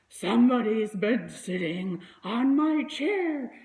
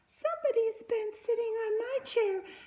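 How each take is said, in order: First: It is said in a rough, gruff voice. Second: It is said in a tiny, itty-bitty voice. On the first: "he said in his rough, gruff voice" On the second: "he said in his itty-bitty voice"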